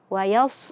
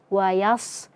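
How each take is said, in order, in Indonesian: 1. Bunyi 's' diucapkan dengan bibir dibulatkan. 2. Bunyi 's' diucapkan dengan bibir santai. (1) "jangan dibaca wayas wayas" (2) "dibaca seperti biasa saja bibirnya, jangan dimonyongkan"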